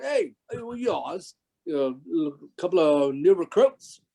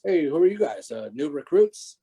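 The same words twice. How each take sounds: First: Higher-pitched mock Cockney; put-on Cockney accent. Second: Said in the usual way. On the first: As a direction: imitate a Cockney crew member sizing up newcomers. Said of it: "more of a Cockney accent". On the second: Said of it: "But in a little bit more".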